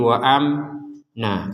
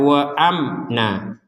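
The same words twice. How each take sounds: First: The m sound is held for too long. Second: The m sound is short and moves straight on. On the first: The speaker calls it wrong. "jangan kelamaan menjadi wa amna" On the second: The speaker calls it right. "Jadi langsung saja"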